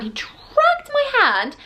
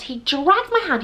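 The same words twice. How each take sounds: First: "dragged" drawn right out on a very high pitch; huge, slow, high emphasis on "dragged"; heavy stress on dragged. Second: "dragged" stretched and raised in pitch; emphatic, slightly drawn-out "dragged"; stress on dragged. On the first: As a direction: stretch "dragged" for outraged emphasis. Repeats it for greater emphasis. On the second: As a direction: lean slowly on "dragged". Retelling being dragged, first take. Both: Real, not acted.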